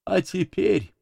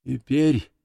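First: High, solemn proclamation falling at the end; sermon opening. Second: Mild, meek plaintiveness, no real whisper; plaintive lowered voice. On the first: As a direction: launch a sermon with raised pitch. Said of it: "как бы перед началом проповеди". (высоко, как начало проповеди) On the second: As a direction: let the preacher's fervour drop into meekness. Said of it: "голос снова понизился до обычного жалобного шёпота". (жалобно, кротко, без пафоса) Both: A narrator's reading.

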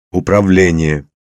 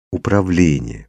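First: Loud, carrying command word; trial command. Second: Gently prompting, at ordinary volume; requesting. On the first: Man tries a control word at random, commanding. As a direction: call it out as an order. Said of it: "Попробовал я наугад". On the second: Father asks his daughter to repeat it, requesting. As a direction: coax the word out of a small child. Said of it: "попросил я". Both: A narrator's reading.

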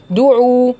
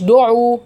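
First: دعوا with a clean rounded u, /duʕu/; correct damma. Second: دعوا with an open o sound, /doʕu/; wrong vowel. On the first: Teacher models دعوا with a pure rounded damma. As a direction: say دعوا with a tight u at the start. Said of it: "لا، هي مش دو، هي دو". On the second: Teacher imitates the student's wrong open o in دعوا. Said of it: "ما تقوليش دعوا". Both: Shown as a demonstration.

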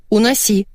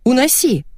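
First: Brisk, controlled order; contained, decisive instruction; firm command. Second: High, exasperated order; sharp, pitched-up dismissal; angry command. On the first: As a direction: tell him firmly to remove it. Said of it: "велела я". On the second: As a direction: snap it with rising annoyance. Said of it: "разозлилась я". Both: A narrator's reading.

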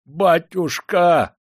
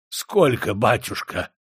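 First: High, loud, drawn-out howl; desperate slow wail; wailing plea. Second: A touch of hoarse dread; mildly croaked question. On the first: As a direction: howl for mercy, stretching the word. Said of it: "взвыл приказчик". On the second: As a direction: rasp out the question weakly. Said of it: "прохрипел он". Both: A narrator's reading.

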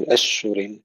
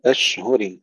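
First: أشهر with the هاء lost into the شين; أشهر said wrongly, its هاء slurred away; wrong pronunciation. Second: أشهر with the هاء clearly sounded after the شين; careful أشهر, هاء distinct from شين. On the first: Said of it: "لا نقول". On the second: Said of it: "أشهر إظهار الهاء". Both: Shown as a demonstration.

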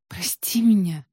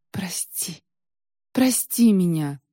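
First: A lightly dazed, bewildered apology; disconcerted. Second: Begging, the first word barely voiced; a hushed, slow plea for forgiveness; pleading. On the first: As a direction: say it lost and confused, not begging now. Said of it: "обескураженно повторила Василиса". (растерянно, обескураженно) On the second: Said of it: "взмолилась Василиса". (тихая мольба о прощении) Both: A narrator's reading.

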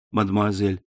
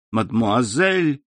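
First: Said in the usual way. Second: Slow, stunned echo of the word; indignant exclamation. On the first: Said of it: "возразил Максимилиан". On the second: A narrator's reading. Valentina echoes Morel's cold word, slow and indignant. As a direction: throw his word back at him, hurt. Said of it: "воскликнула Валентина".

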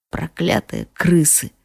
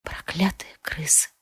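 First: Cursing. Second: Whispered проклятые крысы, unvoiced and much softer. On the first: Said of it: "выругался он". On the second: Queen repeats the healer's curse in a whisper. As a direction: breathe the curse with no voice. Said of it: "шёпотом повторила я". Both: A narrator's reading.

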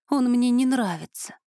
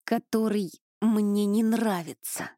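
First: Он said higher and punched, then a falling line; stress on Он. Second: Slow, effortful, each word squeezed out, stress on не; pushing the words past a spell on the tongue; forced out with effort. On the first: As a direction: lean hard on Он, the rest falls away. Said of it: "Вот и всё, что я могу сказать". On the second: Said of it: "с усилием выдавила я". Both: A narrator's reading.

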